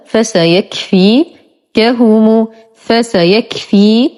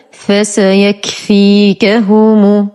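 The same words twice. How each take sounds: First: فسيكفيكهم in two parts, "fasayakfi", long pause, "kahumu"; split in two. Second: فسيكفيكهم slowly in one unbroken run; whole word joined. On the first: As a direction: break فسيكفيكهم after "fi", each part rising. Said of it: "نقسم هذه الكلمة إلى قسمين". (فسيكفيكهم مقسمة إلى قسمين بوقفة بينهما) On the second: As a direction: link all syllables of فسيكفيكهم without a pause. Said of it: "ثم ننطق الكلمة كاملة". (فسيكفيكهم كاملة متصلة ببطء) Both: Shown as a demonstration.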